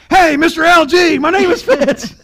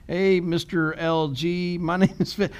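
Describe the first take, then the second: First: Much higher and much louder, shouted phone greeting; yelling into the phone. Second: Said in the usual way. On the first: Retold or imitated. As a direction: blast the greeting at the caller. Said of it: "yelling at people on the phone". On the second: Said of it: "Scar-, sorry".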